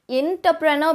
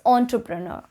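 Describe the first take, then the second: First: The word begins with an 'in' sound. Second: The word begins with an 'on' sound. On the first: The speaker calls it wrong. "A lot of you start it with like entrepreneur, but that is incorrect" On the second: The speaker calls it right. "You would not start it as in but as an on sound"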